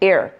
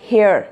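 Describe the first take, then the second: First: It begins directly with a vowel sound. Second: It begins with a breathy h sound. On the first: The speaker calls it right. "the h is going to be silent" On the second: The speaker calls it wrong. "not hair"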